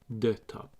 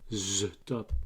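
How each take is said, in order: First: The first word begins with a t sound. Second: The first word begins with a z sound. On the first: "because H is always silent" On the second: "the best way to copy it is by putting the z"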